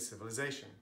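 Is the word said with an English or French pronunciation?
English. The word is said with English pronunciation. The speaker calls it right. "we say civilization"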